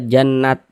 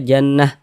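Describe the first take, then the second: First: The word ends with a t sound. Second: The word ends with an h sound. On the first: The speaker calls it wrong. "Jangan dibaca jannat" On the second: The speaker calls it right. "kita baca jannah"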